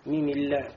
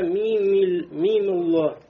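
First: The L is light, with a clear a vowel. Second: The L is heavy, with a dark o vowel. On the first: The speaker calls it wrong. "а не мимилля" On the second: The speaker calls it right. "мими и дальше алло говорится"

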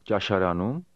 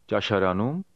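The two takes are said the same way.

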